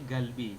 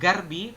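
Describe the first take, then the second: First: The middle consonant sounds like an L. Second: The middle consonant sounds like an R. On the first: The speaker calls it right. "tapi galbi" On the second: The speaker calls it wrong. "bukan e, garbi"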